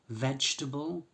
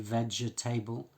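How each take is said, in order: First: The ending is reduced with a weak vowel. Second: The ending is said fully like 'table'. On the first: The speaker calls it right. "we don't pronounce them like table" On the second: The speaker calls it wrong. "We don't say vegetable"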